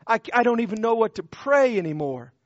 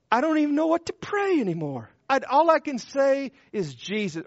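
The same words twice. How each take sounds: First: Said in the usual way. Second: Higher, fast, strained cry of a man at the end of his prayers; anguished plea. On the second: Acted. Preacher voicing a broken man who cannot pray, anguished. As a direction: let it tumble out in desperation.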